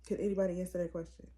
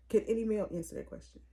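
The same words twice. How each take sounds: First: Quick, with "anybody" pushed hardest; stress on anybody. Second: Fast, with "male" hit as the key word; single out "male" as you rattle it off; stress on male. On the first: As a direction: lean on "anybody" and rattle the rest off fast. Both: Shown as a demonstration.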